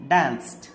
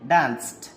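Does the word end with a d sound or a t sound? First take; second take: t; t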